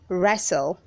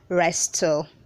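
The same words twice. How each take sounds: First: The T sound is not pronounced. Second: The T sound is clearly pronounced. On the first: The speaker calls it right. "the T is silent" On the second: The speaker calls it wrong. "Don't say wrestle"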